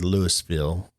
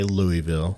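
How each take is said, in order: First: The name is said with an S sound. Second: The name is said without an S sound. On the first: "there's an S in there" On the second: "a lot of people say"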